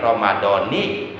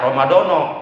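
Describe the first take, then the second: First: The word ends with an 'i' vowel. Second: The word ends with an 'o' vowel. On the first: The speaker calls it right. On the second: The speaker calls it wrong.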